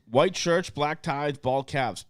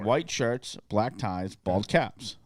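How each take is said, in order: First: It is said at normal speed. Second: It is said slowly.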